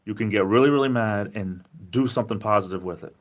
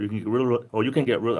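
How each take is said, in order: First: Said in the usual way. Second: Hurried, words tumbling over each other; talking too fast, restarting mid-phrase. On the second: Real, not acted. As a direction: rush it and trip over the words. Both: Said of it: "I'm talking too fast, like a Rhode Islander".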